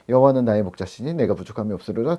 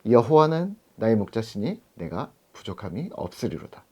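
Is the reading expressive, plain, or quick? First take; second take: plain; expressive. First: It is read aloud in a plain way. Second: It is recited slowly with full expression.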